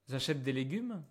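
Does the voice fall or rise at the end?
rises. The voice rises at the end. It is a question.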